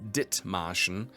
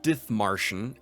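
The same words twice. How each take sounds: First: The middle consonant is a plain t sound. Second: The middle consonant is an English th sound. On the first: The speaker calls it right. "The H is silent. It's not a T H sound like in English, it's just Dit" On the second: The speaker calls it wrong. "It's not Dithmarschen"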